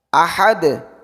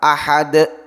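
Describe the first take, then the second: First: The final consonant bounces with an open release. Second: The final consonant ends with an added glottal stop. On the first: The speaker calls it right. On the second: The speaker calls it wrong.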